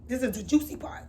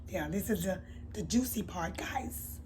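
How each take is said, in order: First: Said in the usual way. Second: Breathy secretive whisper to the camera. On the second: Real, not acted. Vlogger teasing viewers about the juicy part, whispered. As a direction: lean in and whisper it like gossip.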